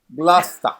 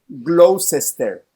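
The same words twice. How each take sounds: First: Middle sounds are dropped, leaving a shorter word. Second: Every written syllable is pronounced fully. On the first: "pero se pronuncia Gloucester" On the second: "así se escribe"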